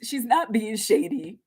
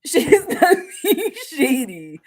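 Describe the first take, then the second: First: Said in the usual way. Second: Slower, louder, laughing through the words; laughing repeat. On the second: Real, not acted. Reader insisting to the client that the friend means well, laughing. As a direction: say it again dissolving into laughter.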